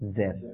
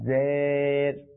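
First: The vowel is kept short. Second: The vowel is drawn out long. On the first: The speaker calls it right. "আমাদের উচ্চারণটা কেমন হবে" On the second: The speaker calls it wrong. "জের এটা হচ্ছে ভুল উচ্চারণ"

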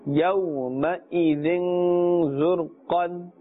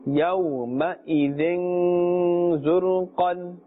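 Both takes have the same delivery.

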